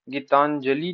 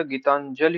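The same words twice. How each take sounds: First: गीतांजलि ending in a long 'ee'; wrong long ending. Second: Said in the usual way. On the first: Shown as a demonstration. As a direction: say गीतांजलि as 'gitanjalee'. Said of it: "नहीं होता". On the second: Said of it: "होता है".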